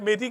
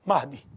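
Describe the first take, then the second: First: The name is said in Persian style. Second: The name is said in original Arabic style. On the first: The speaker calls it wrong. "फारसी वाले मेहदी कहते हैं" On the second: The speaker calls it right. "असल लफ्ज़ महदी है"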